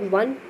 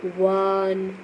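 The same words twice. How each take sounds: First: Said in the usual way. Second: वन stretched very slowly from its w sound; drawn-out pronunciation. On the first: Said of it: "को pronounce करते हैं". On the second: Shown as a demonstration. Teacher shows pupils how one begins, वन drawn out slowly. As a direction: hold वन long so the opening w is heard. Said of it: "like this".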